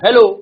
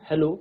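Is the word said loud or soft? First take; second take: loud; soft. First: The word is said more loudly. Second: The word is said more softly.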